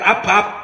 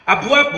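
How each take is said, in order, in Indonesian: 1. Tidak ada bunyi w setelah b. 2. Ada bunyi w setelah b.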